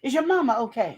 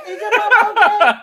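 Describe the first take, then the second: First: Sly coworker, laughing. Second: Is your mama okay pushed up high and loud, laughing; hammed-up sweet coworker. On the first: Acted. Coworker probing about home, laughing mid-line. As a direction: fake concern breaking into laughter. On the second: Coworker pressing the man, hammed up high and loud. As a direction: overplay the fake concern. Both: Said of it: "she slithered on in there".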